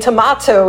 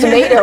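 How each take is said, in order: First: It is said with a British accent. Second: It is said with an American accent.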